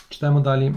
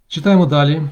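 First: Said in the usual way. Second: Said louder to call the class back; louder announcement. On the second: Real, not acted. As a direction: raise the voice to move on in the reading. (гучніше оголошення)

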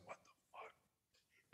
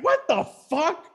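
First: Slow, breathless whisper; mock stunned whisper; whispered disbelief. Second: High, slow disbelief; mock high-pitched shock; stunned. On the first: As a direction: whisper it slowly, dazed. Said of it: "it was just like". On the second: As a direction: squeal it out, baffled. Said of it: "And I'm just like".

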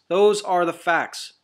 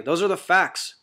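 First: "Those are the facts" slowed right down, each word weighted; slow emphatic repeat. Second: Said in the usual way. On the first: Real, not acted. Preacher driving the point home to listeners, slow and emphatic.

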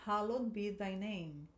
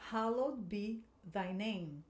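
First: Slow, careful repeat; teacher repeating for students; model line again. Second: Slow, careful pronunciation; teacher modelling for students to repeat; slow model line. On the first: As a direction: say it slowly once more. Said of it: "De novo". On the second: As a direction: read it slowly for echoing. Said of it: "Agora aqui essa parte". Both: Shown as a demonstration.

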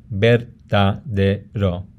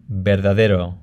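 First: Verdadero slowly split into ver-da-de-ro; syllable by syllable. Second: Said in the usual way. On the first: Shown as a demonstration. Teacher shows where syllables end, syllable by syllable. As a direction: pull verdadero apart into four syllables. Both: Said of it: "how you break up a word".

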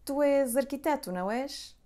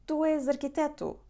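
First: És raised high and louder, then a light não és; tag question. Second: És lifted high and louder, falling after; rising questioning pitch on és, checking a guess; confirming question. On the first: Teacher modelling a tag question to confirm a job, lifted pitch. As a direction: ask it like you are confirming a hunch. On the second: Teacher showing how to confirm a guess about a profession, questioning lift. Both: Shown as a demonstration. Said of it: "you would ask like this".

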